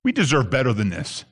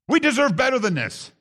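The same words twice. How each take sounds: First: Lower, grumbling take on the entitled people; low grumbling "We deserve better than this"; entitled complaint. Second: Higher, rising take on the entitled people; higher, pressed "We deserve better than this"; entitled complaint. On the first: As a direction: voice their complaint low and sulky. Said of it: "here's what they're really saying". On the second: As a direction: push the complaint up as it builds. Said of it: "This is what they're really saying". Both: Retold or imitated.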